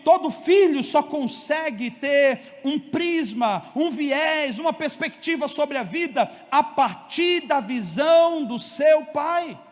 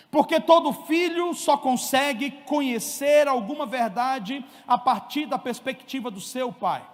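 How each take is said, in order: First: Slow, louder repeat with weight on "seu pai"; emphatic repeat. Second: Said in the usual way. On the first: Shown as a demonstration. Preacher repeats point to congregation, slow and emphatic. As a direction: lean into each phrase, slow and firm. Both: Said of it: "Eu vou repetir".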